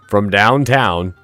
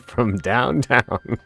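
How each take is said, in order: First: It is a loud, screamed announcer-style call. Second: It is a put-on cartoon character voice. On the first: "the announcer voice would scream from downtown" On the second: "Except it was like Bugs Bunny"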